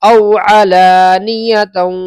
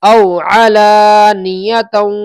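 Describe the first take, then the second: No difference in how they are said.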